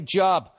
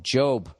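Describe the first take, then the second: First: The vowel is short, rhyming with rob. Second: The vowel is long, rhyming with robe. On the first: It sounds like the word for work. The speaker calls it wrong. "I didn't say Job" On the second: It names the biblical figure. The speaker calls it right. "I said it right"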